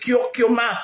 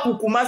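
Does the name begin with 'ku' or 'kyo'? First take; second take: kyo; ku. First: The name begins with a 'kyo' sound. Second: The name begins with a plain 'ku' sound. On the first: The speaker calls it right. "c'est Kyokuma" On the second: The speaker calls it wrong. "ce n'est pas Kukuma"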